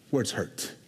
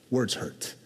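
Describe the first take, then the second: No difference in how they are said.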